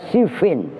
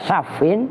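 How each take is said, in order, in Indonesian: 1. Vokal pertamanya adalah 'i' tertutup. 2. Vokal pertamanya adalah 'a' terbuka. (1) "wa kasriha"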